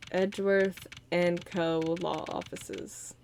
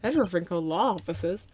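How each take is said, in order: First: Each word drawn out slowly; slow read-out. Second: Name tossed off with a questioning rise; mock surprised question. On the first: Shown as a demonstration. Streamer reading the new office name slowly. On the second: Streamer retelling her reaction to the name, questioning. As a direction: echo it back as a surprised question. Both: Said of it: "Oh, I was like".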